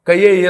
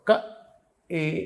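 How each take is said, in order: First: A y-glide joins ka and e into kayye. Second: Ka and e are said apart without a glide. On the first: The speaker calls it wrong. "కయ్యే ఏ లక్ష్మీ అని చదివేశాడు ఒకడు... అలా చదవకూడదు" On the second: The speaker calls it right. "క ఏ ఇక్కడి నుంచి పలకాలి, ఏ అనాలి"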